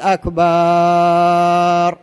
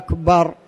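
First: The vowel before the final r is drawn out long. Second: The vowel before the final r is short. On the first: It means drums. The speaker calls it wrong. "لا تقول أكبر، هذا خطأ" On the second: It means greater. The speaker calls it right. "لكن أكبر اجزمها"

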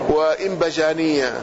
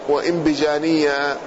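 The two takes are said the same way.

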